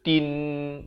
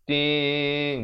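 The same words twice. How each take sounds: First: The n is pronounced clearly and fully. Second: The n is blurred into a nasal hum. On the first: The speaker calls it wrong. "bukan tin. Kalau tin jadi izhar" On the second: The speaker calls it right. "Tin bunyi begitu"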